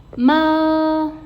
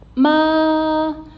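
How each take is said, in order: First: The pitch stays level and is held long. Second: The pitch stays level and is held long.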